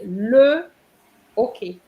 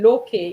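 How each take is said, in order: First: The article is said as a separate syllable. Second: The article is run into the word. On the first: The speaker calls it right. "You have to say le okay" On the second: The speaker calls it wrong. "you can't say loke"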